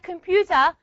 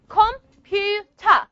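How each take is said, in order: First: Said in the usual way. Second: Computer slowly split as "com, pu, ter"; syllable by syllable. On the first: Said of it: "When I said the word just like". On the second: Shown as a demonstration. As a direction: sound out computer in three separate beats. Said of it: "three syllables in the word computer".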